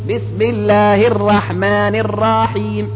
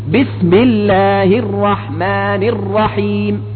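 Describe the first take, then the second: The two takes are said the same way.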